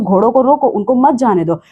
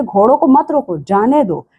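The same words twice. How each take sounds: First: "घोड़ों को रोको" as one command, then "उनको मत जाने दो"; break after रोको. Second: "मत रोको" kept together, then "जाने दो" set apart; break before जाने दो. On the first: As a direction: split the phrase after "रोको", keeping "मत" with "जाने दो". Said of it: "पहले वाक्य में आप कह रहे हो". ("रोको" पर वाक्य तोड़कर "उनको मत जाने दो") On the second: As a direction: split after "मत रोको" and let "जाने दो" drop in pitch. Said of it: "और दूसरे में है". ("मत रोको" के बाद तोड़कर "जाने दो") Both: Shown as a demonstration.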